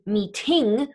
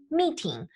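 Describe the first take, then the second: First: "meeting" with the stress moved to the end, mee-TING; misplaced stress on meeting. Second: "meeting" stressed on the first syllable, MEE-ting; English stress on meeting. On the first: Teacher showing what not to say in German, "meeting" stressed mee-TING. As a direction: hit the second syllable of "meeting". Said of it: "We're not saying in German meeting". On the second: Teacher correcting to the English way, "meeting" stressed MEE-ting. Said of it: "just like in English". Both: Shown as a demonstration.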